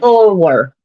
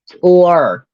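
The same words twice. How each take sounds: First: It is said in his Southern accent. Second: It is said in an attempted standard accent.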